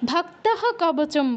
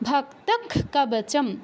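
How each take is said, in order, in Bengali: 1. বিসর্গ h ধ্বনির মতো উচ্চারিত হয়। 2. বিসর্গ k ধ্বনির মতো উচ্চারিত হয়। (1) "নর্মালি আমরা চ্যান্টিং না হলে ... ভক্তহ কবচম বলবো" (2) "তখন আমরা বিসর্গের উচ্চারণ করব ক্ষয় হসন্তর মতো"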